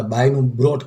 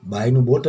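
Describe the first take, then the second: First: "બ્રોટ" said with an r after the b; "બ્રોટ" mispronounced with a br- start; students' mistaken form. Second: "બોટ" said with no r after the b; "બોટ" with a plain b start; correct form. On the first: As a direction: put a wrong r into "બ્રોટ", as students do. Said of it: "ઘણા વિદ્યાર્થીઓ એવી mistake કરતા". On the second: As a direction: go straight from b to the vowel in "બોટ". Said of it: "બાયનું બોટ જ થાય". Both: Shown as a demonstration.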